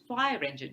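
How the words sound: The stress falls on the word fire. It names a compound word. The speaker calls it right. "In a compound, the main stress is always on the first word"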